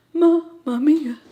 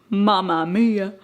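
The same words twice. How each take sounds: First: Louder, slow mamma mia in a hammed-up Italian flavor; mock Italian exclaim. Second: Said in the usual way. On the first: Shown as a demonstration. Admiring her finished nachos with a hammed-up, slow mamma mia. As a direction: stretch "mamma mia" like a delighted Italian cook.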